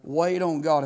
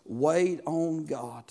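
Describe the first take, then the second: First: Said in the usual way. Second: "wait on God" drawn out slowly, each word weighted; emphasized, slow. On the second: Shown as a demonstration. Pastor stressing the key line to the church, slow and weighty. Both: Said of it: "If I could emphasize something tonight".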